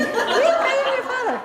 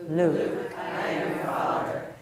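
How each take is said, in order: First: Villain's line in a very high, loud squeak; Minnie Mouse. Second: Slow, low villain voice; Darth Vader. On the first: Coach mixes up the two exercises, Minnie Mouse voice. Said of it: "now do the Minnie Mouse one again". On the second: Coach leads one last practice, Darth Vader voice. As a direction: intone it from the bottom of your comfortable range. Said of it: "say it again one more time". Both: Shown as a demonstration.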